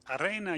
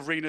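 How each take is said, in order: First: The word is pronounced the Czech way. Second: The word is pronounced the English way. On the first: The speaker calls it right. "you should say, for Czech pronunciation" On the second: The speaker calls it wrong. "Hope you'll forgive me if I stray to arena sometimes"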